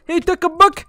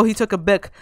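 First: Loud, high-pitched cry of alarm; alarmed exclamation. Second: Said in the usual way. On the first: Real, not acted. Gamer reacting to opponent taking a book, alarmed exclamation. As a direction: call it out again, much higher and louder. Alarmed repeat during a fight.

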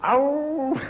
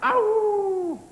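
First: High, drawn-out wolf howl. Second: Very high, sustained wolf howl; wolf impersonation pitched right up; big wolf howl. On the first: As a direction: howl "ow" like a wolf, well above speaking pitch. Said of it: "your impersonation of a wolf". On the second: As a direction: let out a long, soaring howl like a big wolf. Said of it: "I mean a big wolf". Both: Pretend.

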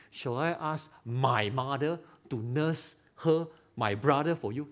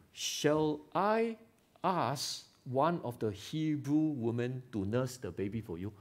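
First: Plainly stated, slow, unpolished asking; a mildly naive, unguarded ask; blunt request. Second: Gently courteous, unhurried asking; a mild polite ask, trailing softer at the end; polite request. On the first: Preacher demos the clumsy wrong way to ask, blunt and plain. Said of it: "That's stupid". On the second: Preacher demos a polite offer to the princess, gently courteous. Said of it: "So polite". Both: Shown as a demonstration.

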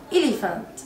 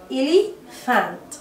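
First: Said in the usual way. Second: "Elephant" slowly split as ele, fant; "Elephant" with a teaching gap before the f syllable; broken into parts. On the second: Shown as a demonstration. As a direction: sound out "Elephant" in two parts, clear f. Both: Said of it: "البي مع الاتش بتتنطق ف".

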